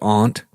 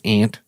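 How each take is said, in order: First: The vowel differs from the insect word 'ant'. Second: The vowel matches the insect word 'ant'. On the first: It sounds upper-class and refined. The speaker calls it wrong. "I refuse to pronounce it aunt" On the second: It sounds ordinary and down-to-earth. The speaker calls it right. "it's ant"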